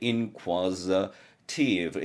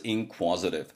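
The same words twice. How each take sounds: First: Inquisitive spelled out very slowly, syllable by syllable; 발음을 또박또박 천천히; careful pronunciation. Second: Inquisitive run together smoothly as one word; 연음시켜서 매끄럽게; linked pronunciation. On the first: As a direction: stretch out each syllable of Inquisitive. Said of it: "이렇게 발음 나는데". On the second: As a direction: blend the sounds of inquisitive together. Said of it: "연음시켜서 inquisitive". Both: Shown as a demonstration.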